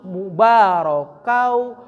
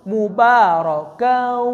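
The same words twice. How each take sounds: First: Slow "mubarakau" landing "kau" in the mouth; "mubarakau" drawn out, ending still oral before any hum; mouth first. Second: Slow "mubarakau" with the held "kau" turning nasal; "mubarakau" drawn out into a long nasal hum; nose takes over. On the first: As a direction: chant "mubarakau" and stop on an open "kau". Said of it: "mulut dulu". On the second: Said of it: "yang aktif hidung". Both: Shown as a demonstration.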